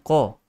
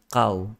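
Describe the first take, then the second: First: The q sound is heavy, with a raised tongue. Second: The q sound is light, without a raised tongue. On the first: The speaker calls it right. "Sepatutnya ko" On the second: The speaker calls it wrong. "Tetapi isti'la itu hilang. ... Dia jadi kau"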